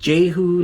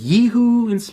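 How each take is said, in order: First: The name begins with a J sound. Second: The name begins without a J sound. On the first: "like with the J" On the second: "a lot of people pronounce it Yehu"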